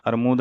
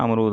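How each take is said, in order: First: अरमूद said with r before m, ar-mood; अरमूद as the common mistaken form, ar-MOOD; wrong form. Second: अमरूद said with m before r, am-rood; अमरूद stated as the correct form, am-ROOD. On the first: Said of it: "अरमूद नहीं होता". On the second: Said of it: "अमरूद होता है". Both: Shown as a demonstration.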